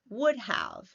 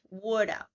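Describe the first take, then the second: First: 'Have' is said in full. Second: 'Have' is reduced to a schwa.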